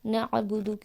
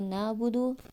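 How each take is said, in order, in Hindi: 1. इस शब्द में गले वाली ain आवाज़ है। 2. इस शब्द में सादा स्वर है, ain नहीं। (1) "आइन की जगह अलिफ कर दिया" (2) "आइन की जगह अलिफ कर दिया"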